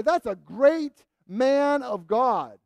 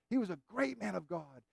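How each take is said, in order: First: Slow and loud, every word weighted; drawn-out emphatic praise of John. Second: Quiet echo of the praise; soft restatement. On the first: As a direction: proclaim it slowly with full force. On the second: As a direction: let it drop back quietly. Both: Acted.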